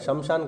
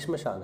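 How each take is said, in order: First: It starts with 'sham', a vowel after sh. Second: It starts with 'shm', no vowel after sh. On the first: The speaker calls it wrong. "शमशान कहाँ है" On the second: The speaker calls it right. "श्मशान है"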